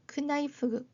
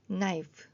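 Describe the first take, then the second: First: A k sound is heard before the n. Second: The word starts on the n sound. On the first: The speaker calls it wrong. "가 아니라" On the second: The speaker calls it right. "크가 소리가 안 나죠"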